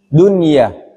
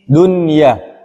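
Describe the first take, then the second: First: The n is clearly pronounced before the y. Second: The n is clearly pronounced before the y.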